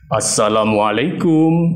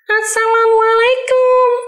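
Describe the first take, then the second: First: It is said in a big, deep man's voice. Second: It is said in a small child's voice. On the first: "kalau suara bapak-bapak, bisa dibesarkan suaranya" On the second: "Suara anak kecil"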